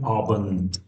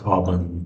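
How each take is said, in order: First: The word ends with a voiceless T sound. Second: The word ends with a voiced D sound. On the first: The speaker calls it right. "it changes to T sound, T, like guten Abend" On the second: The speaker calls it wrong. "not Abend"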